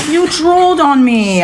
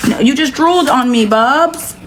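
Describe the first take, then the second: First: Pet-talk scolding. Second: Pet talk. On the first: Repeating to her pet, more insistent. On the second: Talking to her pet. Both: Real, not acted.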